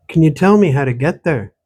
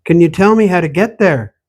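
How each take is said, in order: First: Said in the usual way. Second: Raised voice, calling after her; louder urgent repeat. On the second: Acted. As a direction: call it after her as she walks off. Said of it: "Wait," he said".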